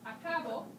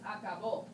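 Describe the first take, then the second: First: The final syllable is not stressed. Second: The final syllable carries the stress. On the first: I finish. "that means I finish" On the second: He finished. "there's a slight emphasis on that accent letter"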